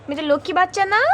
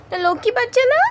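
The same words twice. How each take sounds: First: Said in the usual way. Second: Much higher, sing-song coo; high baby talk. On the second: Acted. Owner coos high at her lying cat.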